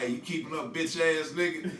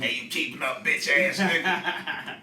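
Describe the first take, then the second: First: It is said in the speaker's normal voice. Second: It is said imitating Cheese's voice.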